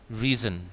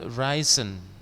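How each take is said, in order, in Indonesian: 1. Kata ini terdengar seperti 'reason'. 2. Kata ini tidak terdengar seperti 'reason'. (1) "seperti membaca alasan apa? Reason" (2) "bukan risen"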